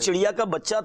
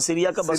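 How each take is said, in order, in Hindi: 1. शब्द साफ़ ch की आवाज़ के साथ बोले जाते हैं। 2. ch की आवाज़ की जगह s की आवाज़ बोली जाती है। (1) "अच्छा वो चिड़िया का बच्चा था" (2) "वो तलफ़ुज़ में थोड़ा सा"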